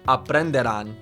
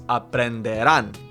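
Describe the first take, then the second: First: The final syllable is not stressed. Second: The final syllable is stressed. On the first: The speaker calls it wrong. "It's not aprenderán" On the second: The speaker calls it right. "it's aprenderán"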